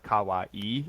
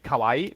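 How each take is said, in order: First: "kawaii" as ka-wa-ee, final vowel held; "kawaii" in separate beats with long ee; lengthened ending. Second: "kawaii" in two syllables, ka-WAI; English-style "kawaii", last vowels run together; unlengthened ending. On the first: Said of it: "not instead of kawaii". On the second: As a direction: cut the final ee of "kawaii" short. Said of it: "They don't lengthen". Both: Shown as a demonstration.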